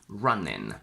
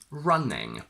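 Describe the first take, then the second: First: It ends in a plain n sound. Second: It ends in a plain ng sound. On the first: "a lazier option where we simply say n instead of ng" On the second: "The standard one is ng"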